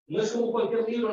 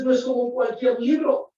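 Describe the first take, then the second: First: Said in the usual way. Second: Preaching shout. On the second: Real, not acted. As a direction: call it out to the congregation. Preacher stresses Bible's uniqueness. (exclamación predicada, más aguda y fuerte)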